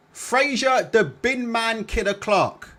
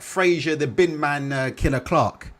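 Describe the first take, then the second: First: Slow, higher, announcer-style build of the nickname; ring announcer. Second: Said in the usual way. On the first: Shown as a demonstration. Streamer introducing Fraser Clark, mock announcer drawl. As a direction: roll the name out like a ring intro. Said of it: "repeats nickname drawn out". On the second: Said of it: "repeats the fighter's nickname".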